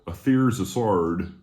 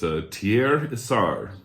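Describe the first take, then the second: First: The name is said with an American pronunciation. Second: The name is said without an American pronunciation. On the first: "as some Americans say it" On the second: "I'm going to attempt to not butcher that"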